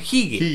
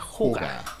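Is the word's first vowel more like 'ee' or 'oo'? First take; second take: ee; oo. First: The first vowel sounds like 'ee'. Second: The first vowel sounds like 'oo'. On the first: The speaker calls it wrong. "la gente cree que es jigue" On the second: The speaker calls it right. "pero se pronuncia juga"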